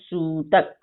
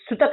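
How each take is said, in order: First: The first vowel is held twice as long. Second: The first vowel is short. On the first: The speaker calls it right. "मैं बोल रही हूँ सूतक, यानी छोटा ऊ से दुगुना जो समय लगता है" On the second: The speaker calls it wrong. "मैं सुतक नहीं ना बोल रही हूँ"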